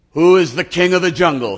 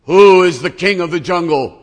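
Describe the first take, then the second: First: Loud, higher lion roar of a question; a proud king daring the tiger; loud lordly lion challenge; lion demanding. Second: Even louder, higher lion boast; loud cocky lion demand. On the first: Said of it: "says the lion". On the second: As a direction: bellow it at the elephant. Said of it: "The lion says". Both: Acted.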